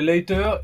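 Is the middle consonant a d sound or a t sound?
t sound. The middle consonant is a crisp t sound. "Avec un T"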